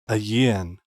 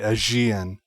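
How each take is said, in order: First: The middle consonant sounds like a soft Y. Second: The middle consonant sounds like a J. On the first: "With the G sounding like a soft Y" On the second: "Or J"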